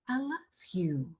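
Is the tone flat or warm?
warm. It is said warmly, with feeling.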